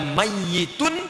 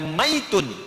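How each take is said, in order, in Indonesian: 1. Bunyi y dibaca panjang dan ganda. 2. Bunyi y dibaca pendek dan tunggal. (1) "pakai tasydid" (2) "pakai sukun"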